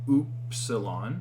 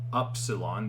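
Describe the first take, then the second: First: The first syllable sounds like 'oo'. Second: The first syllable sounds like 'up'. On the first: The speaker calls it right. "it's oo" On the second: The speaker calls it wrong. "It's not up"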